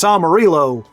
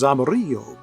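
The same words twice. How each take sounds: First: It is said in a country English accent. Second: It is said Spanish-style with a rolled R.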